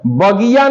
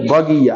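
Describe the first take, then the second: First: बगिया with the i after g held long and raised; wrong long i. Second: बगिया with the i after g short and quick, pitch low. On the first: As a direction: stretch बगिया into bagee-ya. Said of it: "बगिया नहीं". (बगिया में लंबी, बड़ी ई) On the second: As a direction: pass quickly over the i in बगिया. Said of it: "थोड़ा जल्दी करना है". (बगिया में छोटी, तेज़ इ) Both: Shown as a demonstration.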